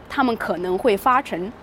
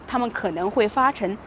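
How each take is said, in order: No difference in how they are said.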